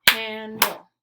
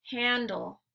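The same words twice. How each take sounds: First: "Handle" loud, with a break between its two syllables. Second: Said in the usual way. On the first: Shown as a demonstration. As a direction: clap out both beats of "Handle". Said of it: "clap the syllables out". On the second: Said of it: "I'll say the word".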